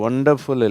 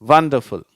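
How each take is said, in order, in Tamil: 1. இந்த வார்த்தை சாதாரண 'o' உயிரெழுத்தில் தொடங்குகிறது. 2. இந்த வார்த்தை 'w' ஒலியில் தொடங்குகிறது. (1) "இது ஒண்டர்ஃபுல் இல்லை" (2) "இது வண்டர்ஃபுல்"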